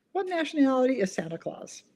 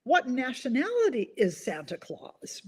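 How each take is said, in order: First: Said in the usual way. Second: Slow riddle read. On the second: Shown as a demonstration.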